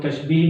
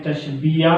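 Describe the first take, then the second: First: तशबीह said tash-beeh, two syllables; common variant reading. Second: तशबीया said tash-bee-ya, ending in an open "ya"; three-syllable reading. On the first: Teacher giving the common reading, तशबीह as tash-beeh. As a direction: end तशबीह on long "ee", no "ya". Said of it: "लोग तशबीह भी पढ़ देते हैं". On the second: Teacher naming the term for pupils, तशबीया as tash-bee-ya. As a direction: finish तशबीया on a clear "-iya". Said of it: "इसको अक्सर लोग तशबीह भी पढ़ देते हैं". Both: Shown as a demonstration.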